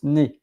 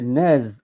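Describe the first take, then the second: First: The final z sound is silent. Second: The final z sound is pronounced. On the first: The speaker calls it right. "but in fact you pronounce ne" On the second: The speaker calls it wrong. "when you are reading N E Z, you would say nez"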